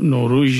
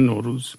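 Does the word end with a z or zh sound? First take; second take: zh; z. First: The word ends with a zh sound. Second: The word ends with a plain z sound. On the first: This is the form Kurdish speakers do not use. The speaker calls it wrong. "یعنی نوروژ نمیگن" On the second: This is the form Kurdish speakers actually use. The speaker calls it right. "ولی نوروز رو میگن نوروز"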